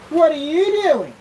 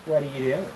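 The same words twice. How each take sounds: First: High, loud, slow sing-song call; dog-calling voice. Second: Said in the usual way. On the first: Real, not acted. Calling his dog Taco in a high sing-song voice.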